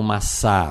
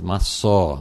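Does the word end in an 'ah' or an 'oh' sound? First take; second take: ah; oh. First: The word ends in an 'ah' vowel. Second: The word ends in an 'oh' vowel. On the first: The speaker calls it wrong. "não massá" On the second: The speaker calls it right. "mas massó"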